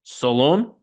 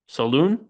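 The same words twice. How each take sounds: First: "Solon" with an O in the last syllable; tentative pronunciation. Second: "Saloon" with a long OO, rising; alternative pronunciation. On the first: Podcaster unsure of a draftee's surname, questioning "Solon". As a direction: try "Solon" as a question, second syllable like "lone". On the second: Podcaster second-guessing a draftee's surname, questioning "Saloon". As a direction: try "Saloon" as a question, second syllable like "loon". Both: Shown as a demonstration. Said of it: "I think it's Saloon".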